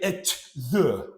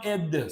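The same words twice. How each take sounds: First: Each word is said separately and clearly. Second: The words run together, the th like d. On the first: "He did not say at the" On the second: "we connected at, and this T H sounded almost like D"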